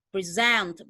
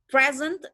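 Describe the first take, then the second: First: The stress is on the second syllable. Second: The stress is on the first syllable. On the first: It is a verb meaning to present or show. "di stress di second syllable" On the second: It is a noun meaning a gift. "dia ditekan di first syllable"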